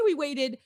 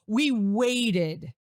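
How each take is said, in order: First: Said in the usual way. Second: WAITED drawn out with weight; pointed emphasis. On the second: Shown as a demonstration. Hinting to the audience at wedding-night abstinence, WAITED stressed meaningfully. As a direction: lean slowly and knowingly on "waited". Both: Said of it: "get what I'm putting down".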